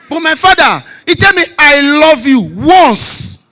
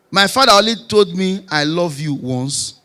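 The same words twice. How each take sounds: First: Loud and high, punching "once"; emphatic repeat. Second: Said in the usual way. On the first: Real, not acted. Comic contrasts his father with himself, emphatic repeat with "once" hit hard. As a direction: hammer home "I love you" and "once", raised voice.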